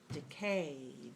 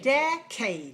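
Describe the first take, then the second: First: The stress is on the second syllable. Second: The stress is on the first syllable. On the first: "Where's the stress? Two" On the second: "only one of them is clear and stressed, and that is the first one"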